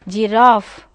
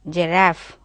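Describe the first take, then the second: First: The stressed vowel is a long 'ah' sound. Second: The stressed vowel is a short 'a' as in cat. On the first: "In British phonetic transcription, you find long A" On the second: "you find the vowel A. Man, cat, that sound is there"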